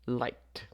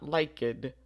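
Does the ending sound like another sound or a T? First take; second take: T; another sound. First: The ending is pronounced as a T. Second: The ending is not pronounced as a T. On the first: The speaker calls it right. "the final sound is a K, so we would say liked" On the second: The speaker calls it wrong. "Not liked"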